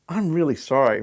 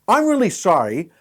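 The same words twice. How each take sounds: First: It sounds flat and unemotional, like a machine. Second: It sounds accusing and blaming. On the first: The news is given coldly, without feeling. "Then we have the computer" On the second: The fault is put on someone else. "That's the blame it"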